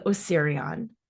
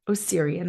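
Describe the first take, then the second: First: "Osirian" with an odd "ahn" ending; strange accent. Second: Said in the usual way. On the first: Shown as a demonstration. Naming the temple with a strange accent. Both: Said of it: "I keep saying it with a strange accent".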